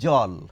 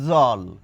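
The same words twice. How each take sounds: First: The word starts with a j sound. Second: The word starts with a z sound. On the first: "এটি দিয়ে একটি শব্দ গঠন করি" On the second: "এই ফুটকিওয়ালা জ দিয়ে লিখে প্রকাশ করি তাহলে তার উচ্চারণ কেমন হবে?"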